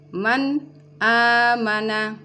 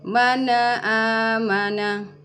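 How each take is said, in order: First: The n is cut off before the vowel. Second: The n is bounced with a small release. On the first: "nun sukun diputuskan sebelum masuk di hamzah" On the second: "nun sukunnya tidak boleh dipantulkan"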